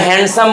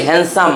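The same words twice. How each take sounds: First: "হ্যান্ডসাম" with the D sounded; common pronunciation. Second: "হ্যান্ডসাম" as "han-sum", no D; silent D. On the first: Teacher quoting how we usually say handsome, D sounded. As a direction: say "হ্যান্ডসাম" as "hand-sum". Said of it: "আমরা হ্যান্ডসাম বলি". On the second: Teacher correcting students on handsome, silent D. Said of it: "ডি এর উচ্চারণ হবে না।". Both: Shown as a demonstration.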